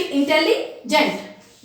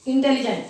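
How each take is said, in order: First: intelligent slowly split, pausing before "gent"; syllable break. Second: Said in the usual way. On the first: Shown as a demonstration. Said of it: "यहाँ syllable आ गया". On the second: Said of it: "इसमें भी intelligent यहाँ syllable आ गया".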